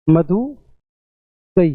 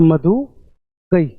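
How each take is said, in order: First: Said in the usual way. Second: मधु गई read very slowly, word by word; slow deliberate reading. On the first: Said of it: "अपन इतना ही पढ़ेंगे ना". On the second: Shown as a demonstration. Teacher to students, reading मधु गई very slowly. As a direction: drag out मधु गई as a slow demo. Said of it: "सिर्फ इतना ही".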